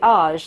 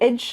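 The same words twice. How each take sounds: First: It sounds like the ending of collage. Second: It sounds like the ending of village. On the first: "Some of them you always say age, like uh, collage or sabotage" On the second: "Some of them you always say age, like village"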